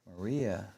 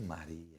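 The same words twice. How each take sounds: First: It is said with an English accent. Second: It is said with a Spanish accent.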